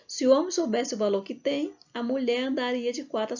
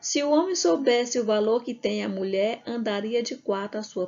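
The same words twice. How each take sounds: First: The pause comes right before "a mulher". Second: The pause comes right after "a mulher". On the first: The man is the one who has value. "também é lido assim, ó" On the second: The woman is the one who has value. "Ó"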